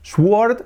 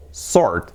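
First: "sword" with the w pronounced, like "swuord"; wrong sword. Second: "sword" as "sord", w silent; correct sword. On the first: Teacher warning learners off the mistake, wrong w in sword. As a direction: say "sword" with an audible w. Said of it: "ya nunca vais a decir". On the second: Teacher correcting for learners, silent-w sword. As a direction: leave the w out of "sword". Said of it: "no, sword". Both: Shown as a demonstration.

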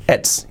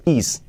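First: "It's" with a clear TS ending; T kept in. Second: "is" with the T left out; wrong form. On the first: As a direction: model "It's" without losing the T. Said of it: "Importante no digáis is". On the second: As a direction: say "is" as the learner's mistake for "it's". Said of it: "no digáis is". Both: Shown as a demonstration.

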